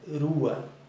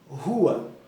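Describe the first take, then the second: First: The R at the start is a soft tap. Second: The R at the start is strong and harsh. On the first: The speaker calls it wrong. "Não é rua" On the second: The speaker calls it right. "mas sim rua"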